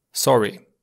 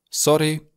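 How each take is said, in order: First: Untrilled r in "sorry"; English-like R. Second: "sorry" with a lightly tapped, rolled r; slightly rolled R. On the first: Teacher repeating the second variant, English-like r in "sorry". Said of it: "cu un R puțin asemănător cu cel din limba engleză". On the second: Teacher repeating the first variant, rolled r in "sorry". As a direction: give "sorry" a little roll on the r. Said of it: "sorry cu un R puțin rostogolit". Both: Shown as a demonstration.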